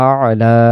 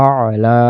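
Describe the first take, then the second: No difference in how they are said.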